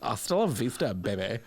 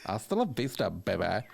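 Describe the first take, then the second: First: Kim Kardashian as Terminator. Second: Sassy Terminator. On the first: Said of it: "What other movies could they be in?". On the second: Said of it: "she's doing a bit of sass on it". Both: Pretend.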